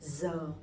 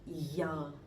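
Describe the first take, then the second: First: The word begins with a z sound. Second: The word begins with a y sound. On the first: The speaker is from the north. "I'm from the north, I'm from Hanoi, so my pronunciation would be giờ" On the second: The speaker is from the south. "people from the south, they would pronounce a little bit differently"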